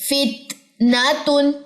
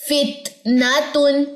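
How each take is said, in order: No difference in how they are said.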